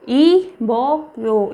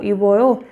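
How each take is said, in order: First: इबोयो drawn out slowly in separate syllables. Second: Said in the usual way. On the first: Shown as a demonstration. Teacher showing learners a new Korean word, इबोयो broken slowly into syllables. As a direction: sound out इबोयो with gaps between syllables.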